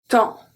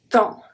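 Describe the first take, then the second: No difference in how they are said.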